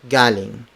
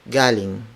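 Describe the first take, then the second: No difference in how they are said.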